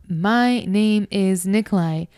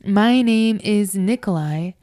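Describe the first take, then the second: No difference in how they are said.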